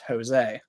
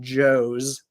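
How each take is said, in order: First: It begins without an English J sound. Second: It begins with an English J sound. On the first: The speaker calls it right. "it's Jose" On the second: The speaker calls it wrong. "it's not Joe's"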